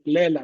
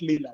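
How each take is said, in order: First: The first vowel sounds like e. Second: The first vowel sounds like i. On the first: The speaker calls it right. "just pronounce it as directly as it is" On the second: The speaker calls it wrong. "not Lila"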